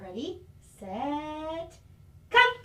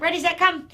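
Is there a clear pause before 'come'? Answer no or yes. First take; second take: yes; no. First: A clear pause comes before the word come. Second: The word come follows with no pause. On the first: The speaker calls it right. "I isolated the word come" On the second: The speaker calls it wrong. "but it wasn't ready, set, come"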